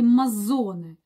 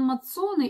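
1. Средний согласный — звук "z". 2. Средний согласный — звук "ts". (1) "правильно говорить Мазоне" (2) "как правильно сказать, Лоран Мацоне или Мазоне"

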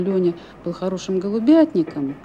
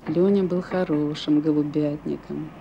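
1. Фраза звучит сомнительно и недоверчиво. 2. Фраза звучит мрачно и тоскливо. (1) "отец как бы выражал свое недоверие" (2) "уже с какой-то угрюмой тоской"

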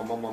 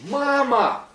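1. Произносится ровно, как привычное повторение. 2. Произносится как срочный, эмоциональный крик.

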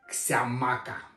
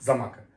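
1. Название начинается со звука 'ks'. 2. Название начинается со звука 'z'. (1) "Но так говорить не надо" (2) "Ксямака читается как замака"

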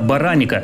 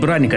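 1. Гласный отделяет первые два согласных. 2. Первые два согласных произносятся вместе, без гласного. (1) "это бараника, и это большая разница" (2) "это не браника"

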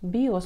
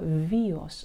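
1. Слово начинается со звука b. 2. Слово начинается со звука v.

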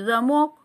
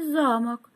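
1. Ударение на втором слоге. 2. Ударение на первом слоге. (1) "появился маленький замок" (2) "исчез огромный замок"

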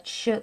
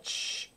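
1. Звук произносится с голосом. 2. Звук произносится без голоса. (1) "с голосом" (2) "И без голоса"

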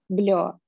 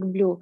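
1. Слово заканчивается на один гласный 'yo'. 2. Слово заканчивается на долгий гласный 'oo'. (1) "По-немецки, например, должно быть вроде бы как «блё»" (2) "Вот Александр читает как blue"

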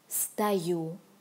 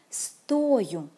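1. Ударение падает на второй слог. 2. Ударение падает на первый слог. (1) "the stress goes on the second syllable" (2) "the stress goes on the first syllable"

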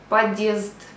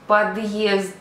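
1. Звук d плавно переходить у голосний. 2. Після d є окремий звук y.

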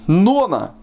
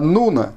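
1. Первая гласная звучит как 'o'. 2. Первая гласная звучит как 'u'. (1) "Не Нона" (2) "а Нуна"

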